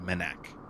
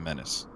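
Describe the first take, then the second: First: The word ends with a K sound. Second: The word ends with an S sound. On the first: The speaker calls it wrong. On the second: The speaker calls it right.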